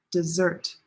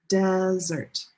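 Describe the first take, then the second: First: "dessert" with weak "de", strong "SSERT"; second-syllable stress. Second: "desert" with a long, held "DES"; first-syllable stress. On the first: Teacher contrasting two words, second-syllable stress on "dessert". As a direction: hit the last syllable of "dessert". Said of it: "That's a big difference". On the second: Teacher leading repeat-after-me, long first-syllable stress on "desert". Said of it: "one syllable is longer". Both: Shown as a demonstration.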